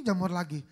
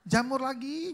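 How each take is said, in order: First: Said in the usual way. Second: "Jamur lagi" pitched high and louder with a rise on "lagi"; rising fed-up "Jamur lagi"; exasperated complaint. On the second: Retold or imitated. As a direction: whine "Jamur lagi" upward like a fed-up husband. Husband complains, same phrase repeated.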